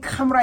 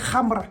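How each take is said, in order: First: The word is said with plain English sounds. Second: The word is said with Arabic sounds. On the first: The speaker calls it wrong. "I will pronounce words the way I would pronounce them in English" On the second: The speaker calls it right. "it's actually Khamra"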